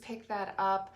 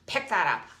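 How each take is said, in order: First: The words are said in a calm, gentle tone. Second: The words are said in an irritated, snappy tone. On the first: The speaker calls it right. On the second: The speaker calls it wrong.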